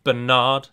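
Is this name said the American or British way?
American. It is said the American way. The speaker calls it wrong. "instead of"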